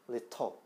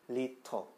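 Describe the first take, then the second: Both takes have the same delivery.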